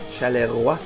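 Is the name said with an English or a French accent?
French. The name is said with a French accent. "I'll try my French accent"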